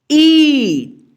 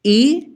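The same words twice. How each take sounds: First: ई held longer, a little higher and louder; long stretched ई; long ii vowel. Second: ई said short and crisp, clipped off quickly; quick short ई sound; short i vowel. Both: Shown as a demonstration. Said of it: "छोटी ई से थोड़ा ज़्यादा समय लगेगा".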